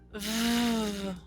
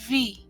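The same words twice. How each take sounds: First: It is said as a buzzing sound alone. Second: It is said as the full letter name. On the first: "the letter's sound" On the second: "the letter's name"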